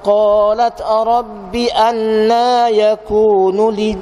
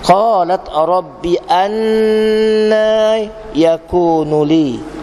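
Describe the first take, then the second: First: The nasal hum on the double n is short. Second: The nasal hum on the double n is long. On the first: The speaker calls it wrong. "dia tak cukup dua harakat lah" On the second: The speaker calls it right. "Jadi kita cukupkan dua harakat yang dengung"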